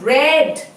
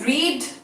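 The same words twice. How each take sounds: First: The word sounds like 'red'. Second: The word does not sound like 'red'. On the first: "it is pronounced as red" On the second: "we have to pronounce it differently"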